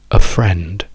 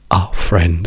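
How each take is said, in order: First: The article is a short schwa. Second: The article is a full Italian 'a' vowel. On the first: The speaker calls it right. "La weak form è semplicemente una schwa" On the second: The speaker calls it wrong. "questa è un italianato"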